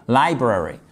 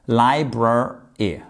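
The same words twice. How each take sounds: First: Said in the usual way. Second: "library" drawn out slowly, lai-brar, then y; slow, broken into syllables. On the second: Shown as a demonstration. Teacher having learners repeat a tricky word, slow syllable by syllable. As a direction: split "library" into slow separate pieces. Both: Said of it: "On répète ensemble".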